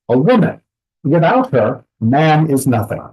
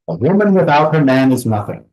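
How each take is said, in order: First: There are pauses after woman and after her. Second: The words flow with even, regular pauses. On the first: Men are worthless without women. "Two additional pauses between woman and without, and between her and man" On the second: Women are worthless without men. "Very regular pauses, nothing special"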